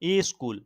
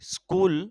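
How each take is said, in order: First: A short i vowel comes before the sk cluster. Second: The word starts directly with the sk cluster.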